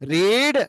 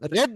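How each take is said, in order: First: The vowel is a long 'ee' sound. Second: The vowel is a short 'e' sound. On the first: It is the present tense. "Present tense లోనేమో రీడ్ అనాలి" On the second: It is the past tense. "Past tense లోనేమో రెడ్ అనాలి"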